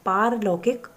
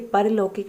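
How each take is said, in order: First: The first vowel is long. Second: The first vowel is short. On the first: The speaker calls it right. "पारलौकिक होता है" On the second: The speaker calls it wrong. "ये परलौकिक नहीं"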